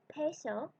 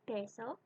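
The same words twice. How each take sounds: First: The P is said the English way. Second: The P is said the Spanish way. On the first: The speaker calls it wrong. "I tried to say it something like this" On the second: The speaker calls it right. "I heard someone say it"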